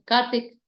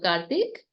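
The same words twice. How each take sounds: First: The name is said in a plain, neutral way. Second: The name is said lovingly and warmly.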